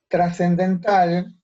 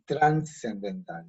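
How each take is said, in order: First: It begins tras, with no n sound. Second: It begins trans, with an n sound.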